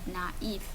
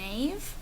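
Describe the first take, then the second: First: The two vowels are said as separate sounds. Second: The two vowels blend into one sound. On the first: The speaker calls it right. "we're going to pronounce them separately" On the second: The speaker calls it wrong. "instead of making naive"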